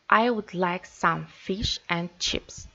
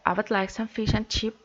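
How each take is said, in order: First: The function words are said in full strong forms. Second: The function words are weakened and said quickly. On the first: The speaker calls it wrong. "If we use strong form to read this sentence" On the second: The speaker calls it right. "So we weaken the function words"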